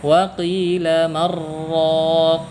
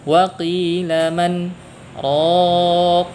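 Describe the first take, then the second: First: The n merges into the r without a stop. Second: A brief stop separates 'man' from 'raq'. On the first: The speaker calls it wrong. "Enggak boleh kita baca" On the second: The speaker calls it right. "diberikanlah sakta. ... Seperti itu"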